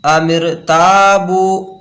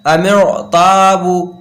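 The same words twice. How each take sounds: First: Slow अमिर ताबू with a light R; thin R. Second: Slow अमिर ताबू with a heavy R; wrong full R. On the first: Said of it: "यहाँ पर पूर्ण नहीं पढ़ेंगे". (अमिर ताबू, रा बारीक, खींचकर) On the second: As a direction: round and darken the R of अमिर, stretch ताबू. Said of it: "रा को अगर पूर्ण करके पढ़ते". (अमिर ताबू, रा पुर, खींचकर) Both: Shown as a demonstration.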